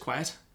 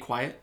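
First: The final T is crisp and clearly released. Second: The final T is soft and barely heard. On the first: "he pronounces the T's if the T is at the end of the word" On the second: "he won't say quiet"

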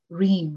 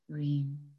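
First: The word is repeated quickly. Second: The word is repeated slowly.

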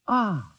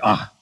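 First: It sounds pleased and warmly satisfied. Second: It sounds doubtful and disbelieving.

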